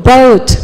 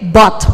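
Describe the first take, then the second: First: "Boat" drawn out as "beh-oot"; "Boat" with a clear diphthong; "boat" with glide. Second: "Bought" with one pure open o; "Bought" with a single rounded vowel; "bought" as bot. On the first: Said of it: "Kalau perahu, boat". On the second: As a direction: say "Bought" as "bawt", no glide. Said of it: "B O sama T". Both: Shown as a demonstration.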